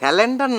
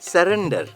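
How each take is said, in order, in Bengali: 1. দ্বিতীয় ব্যঞ্জনটি L ধ্বনি। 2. দ্বিতীয় ব্যঞ্জনটি R ধ্বনি। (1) "স্যালেন্ডার না ভাইয়া" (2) "উচ্চারণটা হবে স্যারেন্ডার"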